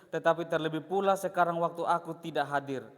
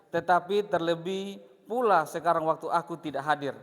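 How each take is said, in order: Both takes have the same delivery.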